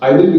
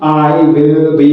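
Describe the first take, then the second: First: The words are said quickly and clipped short. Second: The words are said slowly and drawn out. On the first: The speaker calls it right. "Short" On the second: The speaker calls it wrong. "ऐसे नहीं कि आई विल बी इस type से नहीं"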